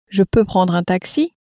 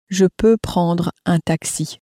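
First: The voice rises at the end. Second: The voice falls at the end.

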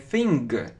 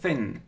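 First: The word ends with an audible hard g sound. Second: The word ends without any hard g sound. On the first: The speaker calls it wrong. "не thing" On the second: The speaker calls it right. "г мы не произносим, просто thin"

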